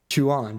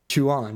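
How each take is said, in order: First: The name is said as two syllables. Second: The same.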